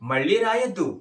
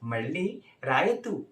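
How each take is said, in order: First: It is said in a sharp, angry tone. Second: It is said in a warm, affectionate tone. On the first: "और गुस्सा से बोलेंगे तो कैसा बोलेंगे?" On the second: "प्यार से।"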